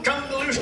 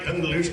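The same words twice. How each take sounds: First: It is said like a cheerful greeting. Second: It is said like a parting farewell. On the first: It means hello. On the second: It means goodbye.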